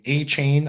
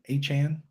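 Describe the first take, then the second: First: The last syllable rhymes with rain. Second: The last syllable rhymes with man. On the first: "That sounds way cooler" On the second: "No Chan"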